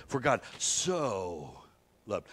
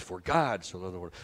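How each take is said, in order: First: "so" stretched out long; slow, heavily held so; stress on SO. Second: GOD leaned on, the rest running on; stress on GOD. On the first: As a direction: draw out so before a short "loved". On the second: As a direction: land on "God", then move through. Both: Shown as a demonstration. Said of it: "if we say it like this".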